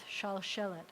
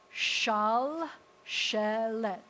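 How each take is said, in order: First: Said in the usual way. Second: "shal shelet" very slow and loud, each syllable drawn out. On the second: Shown as a demonstration. Teacher reading out a long new word, syllable by syllable. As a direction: sound out "shal shelet" in long separate pieces. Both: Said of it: "nice long one".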